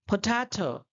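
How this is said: The p is breathy, with a puff of air. This is the English way of saying it. "वो लोग बोलते हैं"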